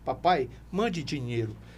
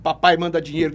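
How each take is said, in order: First: It is said as a soft, pleading request. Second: It is said as a harsh, demanding order. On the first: The son is humbly asking for help. "ele está dizendo assim" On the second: The son is giving an order. "me dando ordem"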